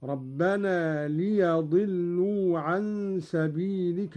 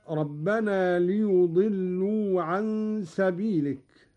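First: Slow recitation, ليضلوا as "li-yaḍillū"; Qalun's fatha reading. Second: Said in the usual way. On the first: Shown as a demonstration. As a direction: open short a on the ي of ليضلوا. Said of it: "بفتح الياء هكذا". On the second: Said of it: "قرأ قالون بفتح الياء".

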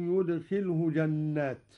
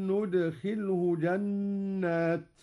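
First: Said in the usual way. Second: ندخله starting with n, nudkhilhu, drawn out slowly; Qalun reading. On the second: Shown as a demonstration. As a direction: begin ندخله with a clear n. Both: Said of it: "قرأ قالون بنون العظمة هكذا".

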